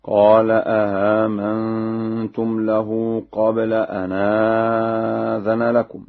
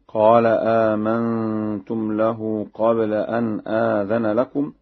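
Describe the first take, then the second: First: Slow chant, second hamza of "آمنتم" softened; Warsh reading. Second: Said in the usual way. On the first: Shown as a demonstration. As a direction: open "آمنتم" with two hamzas, the second eased halfway into a vowel. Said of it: "مع تسهيل الثانية بين بين هكذا". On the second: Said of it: "بهمزتين".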